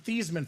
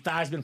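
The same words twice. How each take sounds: First: The name does not rhyme with Heisman. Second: The name rhymes with Heisman. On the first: This is the family's original pronunciation. "They were pronounced the Theismann family" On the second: This is the pronunciation adopted in college. "So it can be Theismann for the Heisman"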